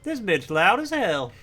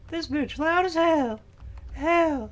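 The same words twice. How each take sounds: First: Higher, louder imitation of Cozy; Cozy impression. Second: Much higher cracking voice as Cozy; Cozy impression. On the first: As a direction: voice cracking on "This bitch loud as hell.". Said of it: "Cozy just walked through and was like". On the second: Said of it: "my Cozy impression makes my voice crack".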